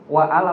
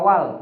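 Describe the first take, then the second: First: The vowel of 'al' is sounded as a separate syllable. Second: The vowel of 'al' drops, giving one syllable. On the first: The speaker calls it wrong. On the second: The speaker calls it right.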